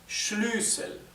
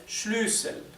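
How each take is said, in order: First: The first vowel is long. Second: The first vowel is long.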